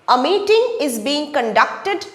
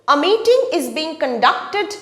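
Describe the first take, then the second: No difference in how they are said.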